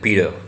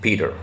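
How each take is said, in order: The two takes are said the same way.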